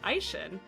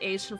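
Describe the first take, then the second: First: The name is read with German-style sounds. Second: The name is read with Japanese-style sounds. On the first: "that's the German pronunciation" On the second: "that's how they pronounce it in the game"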